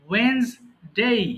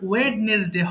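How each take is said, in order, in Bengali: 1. প্রথম d এবং মাঝের স্বরধ্বনিটি লোপ পায়। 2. প্রথম d এবং মাঝের স্বরধ্বনিটি উচ্চারিত হয়। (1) "হবে কি ওয়েন্সডে" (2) "হবে না"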